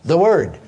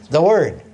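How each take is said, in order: Both takes have the same delivery.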